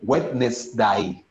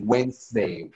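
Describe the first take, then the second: First: Every letter is sounded, including the middle d. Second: The middle d is silent, said like Wensday. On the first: This follows how the word is written. "But we write it Wednesday" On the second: This is how the word is actually spoken. "but we pronounce it Wednesday"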